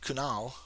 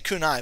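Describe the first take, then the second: First: The name ends in an 'l' sound. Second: The name ends in an 'eye' sound. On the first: The speaker calls it right. "but it's Kunal" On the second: The speaker calls it wrong. "And I say Kunai"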